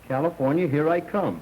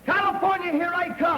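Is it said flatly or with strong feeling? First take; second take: flatly; strong feeling. First: It is said flatly, without much feeling. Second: It is said with strong, excited feeling.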